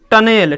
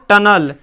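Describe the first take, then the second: First: टनेल as "tun-ELL", clear "e"; slow spelling reading टनेल with "e" before l; mispronunciation demo. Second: टनल as "TUN-ul", loud; firm loud टनल, ending "-nul"; correct pronunciation. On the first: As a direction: say टनेल wrongly, stretching "-nel". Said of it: "टनेल नहीं पढ़ेंगे". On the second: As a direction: say टनल with a short "uh" before l. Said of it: "क्या पढ़ेंगे". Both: Shown as a demonstration.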